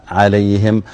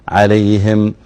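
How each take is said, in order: Both takes have the same delivery.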